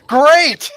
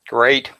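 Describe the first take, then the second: First: It is said with lively enthusiasm. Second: It is said flatly, without enthusiasm.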